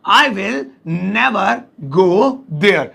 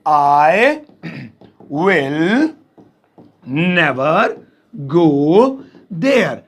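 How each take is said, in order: First: Said in the usual way. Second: Each word set apart, slow. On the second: Shown as a demonstration. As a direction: spell it out slowly, word by word. (एक-एक शब्द धीरे-धीरे) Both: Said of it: "तो इसे English में कहेंगे".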